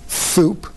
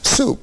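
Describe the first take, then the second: First: The first consonant is a th sound. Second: The first consonant is an s sound. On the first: A lisp that is fine at three. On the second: The final adult form.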